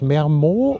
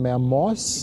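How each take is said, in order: First: The final z sound is silent. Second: The final z sound is pronounced. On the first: The speaker calls it right. "ohne das Z" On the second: The speaker calls it wrong. "Oder Mermoz? Nee, nee, das Z spricht man, glaube ich, im Französischen nicht"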